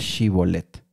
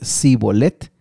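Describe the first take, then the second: First: The word begins with a 'sh' sound. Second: The word begins with an 's' sound. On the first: The speaker is from the tribe holding the crossing. "esta palabra Shi, eh, el inicio de esta palabra" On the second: The speaker is a fugitive from Ephraim. "la pronunciaban diferente. Así que si era de Efraín, ellos iban a decir Sibolet"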